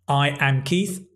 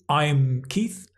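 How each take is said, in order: First: I and am are said as two full words. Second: I and am are contracted into one syllable. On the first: "like contractions"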